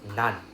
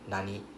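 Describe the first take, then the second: First: The word is cut short to one syllable. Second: The word is said in full with two syllables. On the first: "this nani can be pronounced as nan" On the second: "Can also be pronounced as nani"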